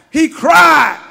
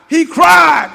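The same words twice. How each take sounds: The two takes are said the same way.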